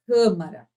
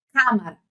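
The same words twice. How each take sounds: First: CÂMARA with a closed, muffled first A; closed vowel. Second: CÂMARA with a wide open first A, as in "cá"; wrong open vowel. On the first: Teacher correcting the wrong take, CÂMARA with closed A. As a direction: say CÂMARA properly, first A closed as the circumflex shows. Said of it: "não é acento agudo". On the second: Teacher showing what you don't say, CÂMARA with open A. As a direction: say CÂMARA wrongly, as if written cámara. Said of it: "Você não fala assim". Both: Shown as a demonstration.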